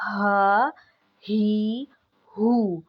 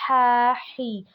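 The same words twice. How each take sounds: First: Strong throaty ہا، ہی، ہو; forceful throat ha. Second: ہا ہی breathed out softly, no force; light airy ہا ہی from the mouth; gentle ہا، ہی with no throat push. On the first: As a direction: push ہا ہی ہو out with force. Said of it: "بہت زیادہ زور کے ساتھ". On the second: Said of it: "بہت soft سی". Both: Shown as a demonstration.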